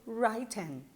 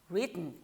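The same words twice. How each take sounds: First: The first vowel is a long diphthong, like 'write'. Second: The first vowel is short, like in 'it'. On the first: The speaker calls it wrong. "não pode ser written" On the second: The speaker calls it right. "ele tem que ser curto"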